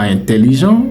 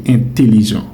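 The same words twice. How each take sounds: First: Intelligent with nasal "in" at the start; wrong pronunciation. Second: Intelligent with oral "è" at the start; correct pronunciation. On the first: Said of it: "ce n'est pas". (intelligent fautif avec « in » nasal) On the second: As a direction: say intelligent opening on a plain "è". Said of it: "ça se lit". (intelligent correct avec « è » oral) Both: Shown as a demonstration.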